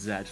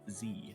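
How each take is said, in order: First: The letter is said as 'zed'. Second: The letter is said as 'zee'. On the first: This is the British and most of the world's way. "it's not just British that pronounce Z as Z" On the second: This is the American way. "The primary exception is the United States, where Z is pronounced Z"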